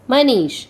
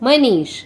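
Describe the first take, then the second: The two takes are said the same way.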